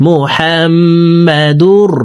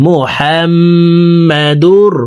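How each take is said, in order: The two takes are said the same way.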